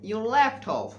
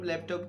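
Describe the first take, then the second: First: It uses a standard English pronunciation of laptop. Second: It uses a Bengali-style pronunciation of laptop. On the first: The speaker calls it right. "সঠিক উচ্চারণ" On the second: The speaker calls it wrong. "আমি বলি"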